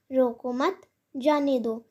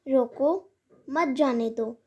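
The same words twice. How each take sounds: First: रोको मत run together, a pause, then जाने दो; pause after मत. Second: रोको drawn out, a pause, then मत जाने दो together; pause after रोको. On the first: Teacher showing the opposite meaning, pause after मत. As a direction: break after "मत" so that "जाने दो" stands apart. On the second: Teacher showing how a pause changes meaning, pause after रोको. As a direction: break after "रोको" so that "मत जाने दो" is one phrase. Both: Shown as a demonstration. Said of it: "वरना अर्थ का अनर्थ भी हो सकता है".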